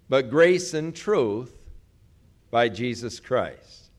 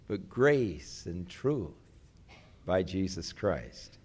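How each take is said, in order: First: It is read in a plain, neutral tone. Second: It is read in a mellow, sweet, tender tone.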